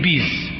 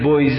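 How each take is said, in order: First: The vowel after the first consonant is i. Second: The vowel after the first consonant is u. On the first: The speaker calls it right. "زمه را تبدیل به کسره کنید راحت بشید" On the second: The speaker calls it wrong. "تلفظش سنگینه"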